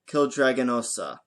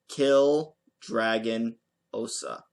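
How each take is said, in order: First: The name is said at normal quick speed. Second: The name is said slowly, part by part.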